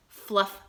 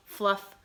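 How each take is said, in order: Both takes have the same delivery.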